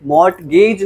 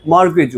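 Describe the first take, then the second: First: मॉर्टगेज as "mort-gayj" with T sounded; wrong pronunciation. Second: मॉर्गेज as "mor-gej", silent T; correct pronunciation. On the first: Teacher shows class the mistake, मॉर्टगेज with audible T. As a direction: sound the T and a long "gage" in मॉर्टगेज. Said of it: "मॉर्टगेज नहीं होगी". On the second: Teacher corrects the class, मॉर्गेज with silent T. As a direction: drop the T and shorten "gej" in मॉर्गेज. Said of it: "मॉर्गेज होगी". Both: Shown as a demonstration.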